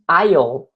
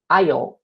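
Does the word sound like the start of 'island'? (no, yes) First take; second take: yes; yes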